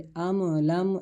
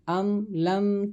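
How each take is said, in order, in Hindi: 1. बे-हरकत म को हल्के स्वर के साथ हिलाया जाता है। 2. बे-हरकत म को बिना स्वर के रोका जाता है। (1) "अम लम ऐसे नहीं पढ़ेंगे" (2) "बल्कि पढ़ेंगे अम लम तुनज़िरहुम"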